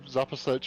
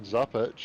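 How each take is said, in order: First: The name is said with three syllables. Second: The name is said with two syllables. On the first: The speaker calls it right. "I believe Zapasic is the correct way to pronounce Chris's name" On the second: The speaker calls it wrong. "I think we were actually saying Zapic"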